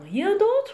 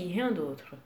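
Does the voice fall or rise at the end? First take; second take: rise; fall. First: The pitch rises at the end. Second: The pitch falls at the end. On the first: It asks whether anything else is wanted. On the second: It answers that nothing else is wanted.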